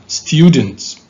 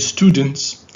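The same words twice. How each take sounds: First: The word is said in a British accent. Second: The word is said in an American accent. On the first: "this is British" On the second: "this is American"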